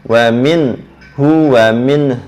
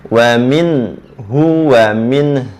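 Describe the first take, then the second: The two takes are said the same way.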